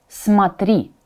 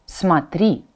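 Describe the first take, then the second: No difference in how they are said.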